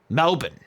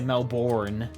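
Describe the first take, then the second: First: It is said with an Australian accent. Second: It is said with an American accent.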